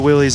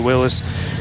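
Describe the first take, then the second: First: The name is said as 'Willies'. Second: The name is said as 'Willis'. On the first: This is the later popular form. "people have morphed it into Willies" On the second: This is the founder's own form. "his name was actually pronounced Willis"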